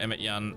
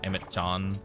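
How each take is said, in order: First: The second name starts with a Y sound. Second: The second name starts with a J sound. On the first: The speaker calls it right. "it looked like it was pronounced with a Yan sound" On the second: The speaker calls it wrong. "that doesn't sound right"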